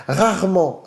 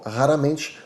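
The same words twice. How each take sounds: First: Rarement said with French uvular r's. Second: Said in the usual way. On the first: Shown as a demonstration. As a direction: rarement with both r's in the throat. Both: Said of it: "preste atenção como eu falo".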